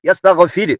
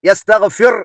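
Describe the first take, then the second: First: The final r sound is light and thin. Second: The final r sound is heavy and thick. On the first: The speaker calls it right. "ഇവിടെ യസ്തഗ്ഫിർ തർക്കീക്ക് ചെയ്യേണ്ട സ്ഥലമാണ്" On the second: The speaker calls it wrong. "എന്ന് ഓതരുത്"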